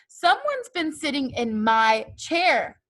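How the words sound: It is growled in Papa Bear's voice.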